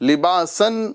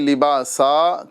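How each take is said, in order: First: The word ends with an n sound. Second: The word ends with a long a vowel. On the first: The speaker calls it wrong. "इसे हम लिबासन नहीं" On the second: The speaker calls it right. "बल्कि लिबासा करके यहाँ पर हम वक्फ करेंगे"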